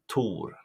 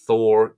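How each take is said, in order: First: The name begins with a plain t sound. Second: The name begins with a th sound. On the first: This is the native Swedish form of the name. The speaker calls it right. "it's Tor" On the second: This is the Americanized form of the name. The speaker calls it wrong. "Thor is not Thor"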